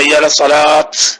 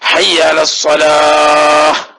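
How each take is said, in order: First: The last word ends with a sharp t sound. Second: The last word ends with a soft h sound. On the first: The speaker calls it wrong. "എന്നാ ചില പാവം പൊട്ടന്മാര് എങ്ങനെ പറയാ" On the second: The speaker calls it right. "ഹാ സുക്കൂനുള്ള ഹാ ആയിട്ടാണ് ഉച്ചരിക്കേണ്ടത്"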